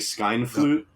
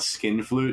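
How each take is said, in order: First: The first syllable sounds like 'skine'. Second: The first syllable sounds like 'skin'. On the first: It avoids sounding rude. "He's like skine flut or like skine flute" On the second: It sounds rude. "not skin flute"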